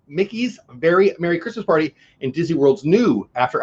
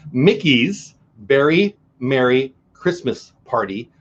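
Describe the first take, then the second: First: Mickey's Very Merry Christmas Party fumbled, said as Mickey's Merry Merry; tongue-tied fumble. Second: Mickey's Very Merry Christmas Party, each word slow and distinct; slow careful retry. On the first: Vlogger stumbling over the party name, fumbled. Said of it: "I can't say it". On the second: Vlogger retrying the hard name, slow and careful. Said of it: "Let's do this one more time". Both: Shown as a demonstration.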